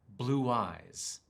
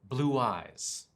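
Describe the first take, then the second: First: A w sound links the two words together. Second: A w sound links the two words together.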